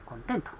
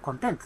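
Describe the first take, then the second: First: The stress is on the second syllable. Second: The stress is on the first syllable. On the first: It means being satisfied. "後ろにアクセントがあるとね" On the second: It means contents or a table of contents. "名詞で前にアクセントがあると"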